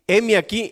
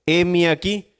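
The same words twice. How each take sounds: First: Put-on a young boy's ready reply, a touch higher; demonstrating the boy Samuel's eager heme aquí; eager child answering. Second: Said in the usual way. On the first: Shown as a demonstration. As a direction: show how little Samuel answered, brightly and willingly. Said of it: "mire, así". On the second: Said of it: "y él respondió".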